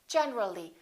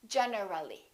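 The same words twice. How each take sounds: First: The vowel before ly is dropped. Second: The vowel before ly is pronounced. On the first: The speaker calls it right. "When we add the ly, we say generally" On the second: The speaker calls it wrong. "not generally"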